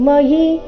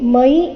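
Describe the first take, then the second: First: It is said as two syllables, ma and yi. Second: It is said as one gliding syllable, mai. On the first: The speaker calls it right. "ಮ ನಂತರ ಯದೊಂದಿಗೆ ಈ ಸೇರಿ ಯಿ" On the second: The speaker calls it wrong. "ಮೈ ಇಲ್ಲ"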